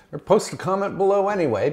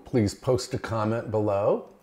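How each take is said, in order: First: Higher, fast cheeky aside; playful. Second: Said in the usual way. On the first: Real, not acted. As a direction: tease them into commenting. Playful repeat of the request.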